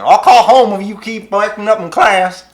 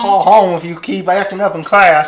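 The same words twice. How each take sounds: First: It is said in a southern accent. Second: It is said in a plain, neutral accent.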